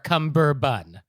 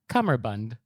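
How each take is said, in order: First: It has a b sound and no final d. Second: It has an m sound and ends in d. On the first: The speaker calls it wrong. "or cumberbun" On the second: The speaker calls it right. "the correct pronunciation is cummerbund"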